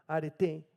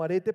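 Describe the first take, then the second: First: Arete with the final E stressed; stress on the last syllable. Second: Arete stressed on the middle RE; stress on second-to-last syllable. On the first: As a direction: land on the end of arete, a-re-TÉ. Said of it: "con acento en la última". (arete acentuado en la última E, a-re-TÉ) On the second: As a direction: say arete as a-RE-te, like the everyday Spanish word. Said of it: "como arete, pero con acento en la última". (arete con acento en la penúltima sílaba, a-RE-te) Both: Shown as a demonstration.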